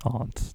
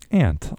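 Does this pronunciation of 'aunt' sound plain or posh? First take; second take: posh; plain. First: The word is said in a posh, affected way. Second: The word is said in a plain, everyday way. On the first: The speaker would be putting on airs. The speaker calls it wrong. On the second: The speaker talks normally without pretension. The speaker calls it right.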